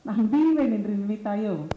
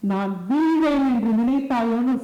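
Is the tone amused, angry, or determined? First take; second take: amused; determined. First: It is said smiling, in a light amused tone. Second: It is said with fierce, determined fervor. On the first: "சிரிச்சுட்டே சொல்லலாம்" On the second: "வரும் பாத்தீங்களா ஒரு உத்வேகம்"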